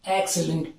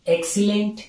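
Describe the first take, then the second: First: The second vowel is reduced and barely heard. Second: The second vowel is a clear long 'ee'. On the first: The speaker calls it right. "एक्सलेंट एक्सलेंट piece of work" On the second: The speaker calls it wrong. "एक्सीलेंट नहीं करेंगे"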